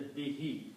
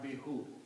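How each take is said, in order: First: The word ends with an 'ee' vowel. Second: The word ends with an 'oo' vowel. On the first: The speaker calls it right. "you pronounce this as a bihi" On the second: The speaker calls it wrong. "not bihu"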